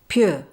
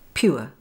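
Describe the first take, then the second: First: The vowel is said fast and smoothed. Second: The vowel glides clearly from oo to uh. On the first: "smoothing this diphthong, especially in fast speech like this" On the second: "then with the diphthong oor"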